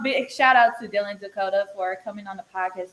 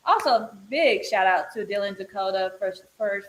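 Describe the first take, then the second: First: Said in the usual way. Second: Stumbling over the words; stuttering. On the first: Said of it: "This is a blooper". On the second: Real, not acted. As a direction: trip and stutter through the line. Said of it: "I'm stuttering right now".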